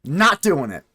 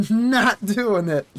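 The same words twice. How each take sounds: First: Said in the usual way. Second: Slow, higher put-on voice drawing out "Not doing it."; mock refusal. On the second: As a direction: stretch "Not doing it." out slowly in a silly voice.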